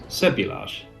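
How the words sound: The word is said with English pronunciation. "that's using the English tongue"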